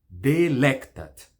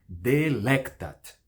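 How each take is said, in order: The two takes are said the same way.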